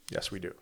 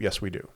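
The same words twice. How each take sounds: First: "Yes, we do" said much softer, dropping away; soft echo. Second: Said in the usual way. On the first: Real, not acted. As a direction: repeat "Yes, we do" softer, almost to yourself. Repeats answer softly.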